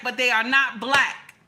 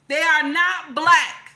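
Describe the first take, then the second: First: Said in the usual way. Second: Slow down and hammer every word; emphatic insistence. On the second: Real, not acted. Telling viewers firmly, loud slow emphatic insistence.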